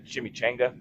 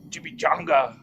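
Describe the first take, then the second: First: It is said with an English-style pronunciation. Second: It is said with a Spanish-style pronunciation. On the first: The speaker calls it wrong. "that's not how you say it" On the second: The speaker calls it right. "It's chimichanga"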